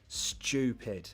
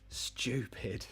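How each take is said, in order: First: The t is said like 'ch', as chew. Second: The same.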